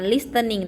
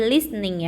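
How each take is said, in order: First: "listening" as lis-te-ning; "listening" read as spelt, t audible; T sounded, wrongly. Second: "listening" as lis-ning, no t; "listening" with s straight into n; silent T. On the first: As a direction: pronounce the t in "listening". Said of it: "jangan listening". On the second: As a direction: drop the t in "listening". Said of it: "tidak dibaca ya". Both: Shown as a demonstration.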